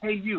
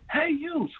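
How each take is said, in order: First: It is called out a little louder. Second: It is screamed loudly and with distress.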